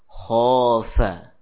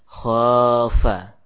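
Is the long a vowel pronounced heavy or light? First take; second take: heavy; light. First: The long a is heavy and thick. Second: The long a is light and thin. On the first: The speaker calls it right. "alif yang ikut tebal" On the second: The speaker calls it wrong. "tidak ditipiskan"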